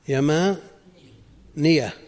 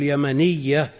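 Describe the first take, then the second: First: يمانية drawn out slowly, long alif, single ya; with alif, light ya. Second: يمنية with short second a and a doubled ya; without alif, doubled ya. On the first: Teacher showing students the form with alif, slow light ya. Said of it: "لكن بدون ألف تقول يمنية". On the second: Teacher contrasting the alif-less form for students, doubled ya. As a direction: drop the long alif in يمنية, press the ya double. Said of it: "بدون ألف تقول يمنية". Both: Shown as a demonstration.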